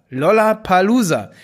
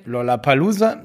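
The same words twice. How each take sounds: First: "Lollapalooza" louder, each syllable clearly separated; over enunciating. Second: Said in the usual way. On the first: Shown as a demonstration. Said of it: "ganz langsam". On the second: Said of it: "noch mal so ein paar Mal sagen".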